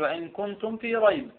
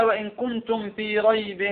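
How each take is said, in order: First: "ريب" cut to "rayb", silent tanween, still final b; stopping on ريب. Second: "ريب" said "raybin", ending in an audible n; kasra tanween. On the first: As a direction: recite softer and stop on the b of "ريب". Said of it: "إذا وقفنا مثلًا على ريب". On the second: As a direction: recite slowly, sounding "-in" on the end of "ريب". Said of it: "هذا تنوين ماذا؟ الكسر". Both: Shown as a demonstration.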